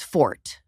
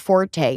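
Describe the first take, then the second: First: The word is said with one syllable. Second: The word is said with two syllables. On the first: "it's the correct way" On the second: "what all you know as forte"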